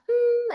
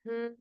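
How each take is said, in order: First: The hum is pitched high in the range. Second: The hum is pitched low in the range. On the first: The speaker calls it wrong. "not hmm at the top" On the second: The speaker calls it right. "start low in your range"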